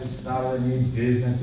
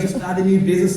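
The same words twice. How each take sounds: First: It is said with low energy. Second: It is said with high energy. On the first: The speaker calls it wrong. "That's not going to work" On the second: The speaker calls it right. "You've got to be energetic"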